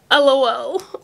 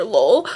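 First: "L O L" said letter by letter; name each letter of "L O L"; spelled-out LOL. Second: "lol" said as one syllable; LOL as word. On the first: Reader offering one reading of fan's abbreviation, "L O L" spelled out. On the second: Reader offering other reading of fan's abbreviation, "lol" as one word. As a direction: say "lol" as a single word, not letters. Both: Shown as a demonstration. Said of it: "L O L or lol".

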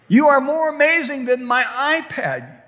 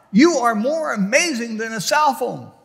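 First: "are" hit harder, higher and louder; rising emphasis. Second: Said in the usual way. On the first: Acted. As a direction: build it up, punch "are". Repeated line, building.

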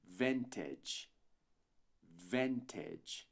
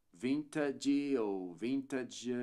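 First: "vintage" said "ventedge", softer, with an edge ending; correct pronunciation. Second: "vintage" slow, with an "ad" ending; "vintage" said slowly, ending "vintadge"; wrong pronunciation. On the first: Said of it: "mas sim". ("vintage" como "vêntedj", final edge) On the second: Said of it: "Não dizemos". ("vintage" lento, com final "adi") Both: Shown as a demonstration.

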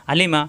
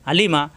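No difference in how they are said.

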